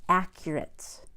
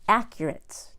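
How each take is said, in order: Both takes have the same delivery.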